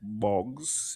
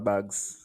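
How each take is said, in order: First: The vowel sounds like the o in bogs. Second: The vowel sounds like the a in bags. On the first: This is the standard English way of saying it. "you know the English would say is bogs" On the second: This is the local Nevis way of saying it. "you got a thing in Nevis where we don't call"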